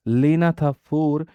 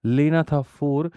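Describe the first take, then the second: No difference in how they are said.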